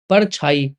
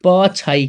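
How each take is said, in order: First: परछाई said with a clear r sound, par-chhai; परछाई with the r sounded, as the mistake; wrong form parchhai. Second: पछाई said with no r, pa-chhai; पछाई with no r sound, the right form; correct form pachhai. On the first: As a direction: stress the r in परछाई as the mistaken version. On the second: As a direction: drop the r in पछाई and give the correct version. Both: Shown as a demonstration. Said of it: "परछाई है कि पछाई है".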